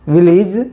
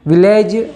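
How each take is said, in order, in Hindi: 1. यह शब्द ब्रिटिश शब्दकोश के तरीके से बोला गया है। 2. यह शब्द आम भारतीय तरीके से बोला गया है। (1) "इसका सही उच्चारण ये है" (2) "हमारे भारत देश में इसे विलेज बोलते हैं, पर वो सही उच्चारण नहीं है"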